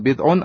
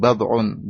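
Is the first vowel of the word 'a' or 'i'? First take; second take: i; a. First: The first vowel is an i sound. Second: The first vowel is an a sound. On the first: "dengan meng mengkasrah" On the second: "dengan fathah"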